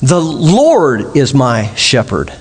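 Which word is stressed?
Lord. The stress is on "Lord".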